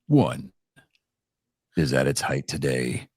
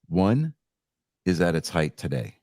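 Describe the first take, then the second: First: It is read in an epic movie-trailer voice. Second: It is read in a plain, ordinary voice.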